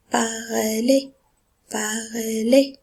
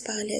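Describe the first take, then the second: First: "Parler" ending in a clear é, no z. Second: "parlez" as the pupils wrongly read it, final letters sounded; students' misreading. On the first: Shown as a demonstration. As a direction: model "Parler" with a final é sound. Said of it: "Le E Z ici se prononce". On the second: Retold or imitated. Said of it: "Ça, c'est faux".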